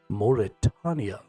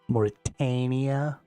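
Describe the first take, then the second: First: The A vowel sounds dignified. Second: The A vowel sounds nasal. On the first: The speaker calls it right. "Sounds all dignified and mystical" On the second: The speaker calls it wrong. "Sounds all nasally and shit"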